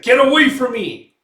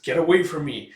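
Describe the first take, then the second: First: Much higher, much louder yell; acted shout. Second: Said in the usual way. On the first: Guts yells at the slithering demon, loud and high. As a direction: scream it at the creature in alarm. Prisoner repelling creature, escalates.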